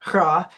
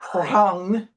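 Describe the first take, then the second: First: The word ends on a bare vowel. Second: The word ends with an ng-like consonant. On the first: The final letter has lost its own sound. "pronounced resh ayin or ra" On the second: The final letter keeps its own sound. "and not rang"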